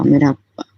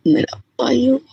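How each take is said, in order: First: Said in the usual way. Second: Lifted, trembling plea; voice breaking high with emotion. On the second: Real, not acted. Devotee calling Guruji her own father, voice cracking. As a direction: let the voice crack upward on the words.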